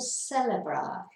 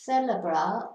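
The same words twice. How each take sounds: First: The word begins with an s sound. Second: The word begins with a th sound. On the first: "you can either do it as a th or a s" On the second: "you can either do it as a th or a s"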